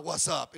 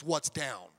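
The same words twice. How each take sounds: First: Said in the usual way. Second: Mock gang style retort. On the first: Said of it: "if you follow that garbage". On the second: Shown as a demonstration.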